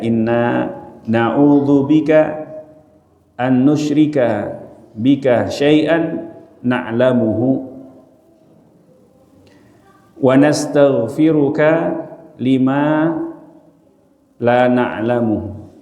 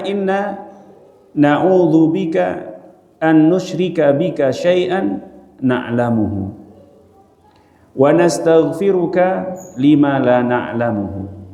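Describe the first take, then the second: First: It is recited slowly, with lengthened sounds. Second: It is recited at a faster, normal pace.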